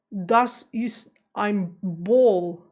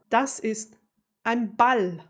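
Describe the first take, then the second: First: Put-on very slow, loud German with an American accent; exaggerated American accent in German, word by word. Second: Native German pronunciation, no American accent; real German accent. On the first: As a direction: imitate an American's German, drawing out "Ball". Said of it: "without an American accent". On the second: Shown as a demonstration. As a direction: say "Das ist ein Ball" as a real German would. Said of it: "like real German".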